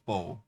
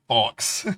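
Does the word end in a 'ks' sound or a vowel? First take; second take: vowel; ks sound. First: The word ends on a vowel, no 'ks'. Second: The word ends with a 'ks' sound. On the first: The speaker calls it right. "I'm pretty sure it's faux" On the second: The speaker calls it wrong. "when I was younger, I said fox"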